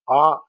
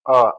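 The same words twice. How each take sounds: First: A said as a full open ah; full a sound. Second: A said as a short neutral uh; unstressed a reduced to uh. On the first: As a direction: open the vowel a wide, unreduced. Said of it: "In normal pronunciation, sound a". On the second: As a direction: let the vowel a fall to a weak schwa. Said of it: "gets reduced to sound a". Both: Shown as a demonstration.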